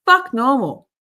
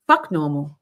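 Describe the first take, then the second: First: Higher, louder defiant cry; loud defiant shout. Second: Said in the usual way. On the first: Real, not acted. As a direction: shout Fuck normal with defiance. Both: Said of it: "repeated louder".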